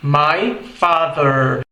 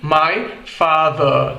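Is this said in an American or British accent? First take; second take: American; British. First: It is said in an American accent. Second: It is said in a British accent. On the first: "em inglês americano, soa como" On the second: "Já no inglês britânico, soaria como"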